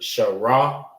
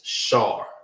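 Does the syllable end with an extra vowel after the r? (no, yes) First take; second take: yes; no. First: An extra vowel is added after the r. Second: The syllable ends on the r sound. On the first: The speaker calls it wrong. "Instead of saying Shara" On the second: The speaker calls it right. "it's Shar"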